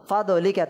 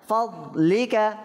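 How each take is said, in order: First: The d is released with an echoing vowel. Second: The d is closed with no echoing vowel. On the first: The speaker calls it wrong. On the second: The speaker calls it right.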